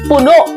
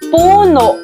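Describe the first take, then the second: First: It is said quickly with a catch at the end. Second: It is said slowly, without a quick ending. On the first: It means filled up to the brim. "bibigkasin ng mabilis at may impit na tunog sa bandang dulo" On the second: It means a tree or its trunk. "Ito ay kabilang sa diing malumi"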